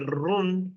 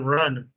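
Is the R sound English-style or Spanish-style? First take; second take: Spanish-style; English-style. First: The R is said the Spanish way. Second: The R is said the English way. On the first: The speaker calls it wrong. "We say run" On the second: The speaker calls it right. "instead of run"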